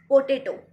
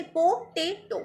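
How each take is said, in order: First: Said in the usual way. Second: potato in three separate beats, po, tay, to; broken into syllables. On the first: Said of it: "तीन बार हमें रुकना पड़ा". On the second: Shown as a demonstration. Teacher letting students hear three stops, broken into syllables. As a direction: lift each piece of potato, po, tay, to. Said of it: "मेरी आवाज़ को सुनना".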